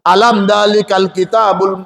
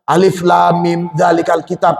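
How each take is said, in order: First: The letters are joined into one word. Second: Each letter is spoken separately by its name. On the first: The speaker calls it wrong. "tapi alam dalikal kitabul. Nah, jangan" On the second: The speaker calls it right. "Yang ini dibaca asmaul huruf"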